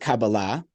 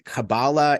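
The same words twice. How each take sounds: First: It is said with a modern Hebrew pronunciation. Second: It is said with an Ashkenazi pronunciation. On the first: "That's sort of a more modern Hebrew pronunciation"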